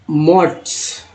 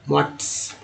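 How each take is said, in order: First: Said in the usual way. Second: Whispered repeat. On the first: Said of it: "teacher models the word". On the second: Shown as a demonstration. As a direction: whisper मोट्स as a soft echo. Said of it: "teacher repeats the word".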